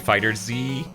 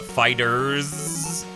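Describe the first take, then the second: First: It ends with the letter name Z. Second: It ends with a plain S sound. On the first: The speaker calls it right. "running Fighter and Z together to make Fighter Z" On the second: The speaker calls it wrong. "I'm not gonna call it Fighters"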